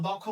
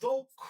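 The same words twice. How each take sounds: First: দক্ষ with an open ɔ, said dɔkkho; wrong pronunciation. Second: দক্ষ with a closed o, said dokkho, pitched up; correct pronunciation. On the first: Teacher shows students the mistaken reading, in plain voice. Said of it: "বললে ভুল হবে". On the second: Teacher models the right reading for students, raised. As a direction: say দক্ষ as dokkho, rounded o sound. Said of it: "এটা হবে". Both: Shown as a demonstration.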